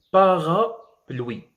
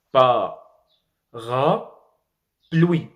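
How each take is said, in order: First: Said in the usual way. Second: "Parapluie" very slowly, pause between syllables; every vowel pronounced. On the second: Shown as a demonstration. Teacher showing learners that all vowels are pronounced, "Parapluie" syllable by syllable. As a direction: break "Parapluie" into pa, ra, pluie, each vowel sounded. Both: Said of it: "doivent être prononcées".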